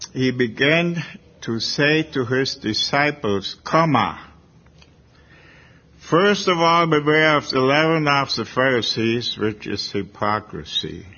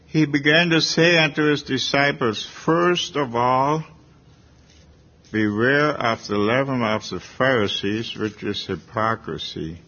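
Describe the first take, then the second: First: There is a clear pause after 'disciples'. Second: There is no pause after 'disciples'.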